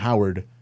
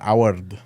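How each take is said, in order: First: The name is said with an English accent. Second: The name is said with a Spanish accent.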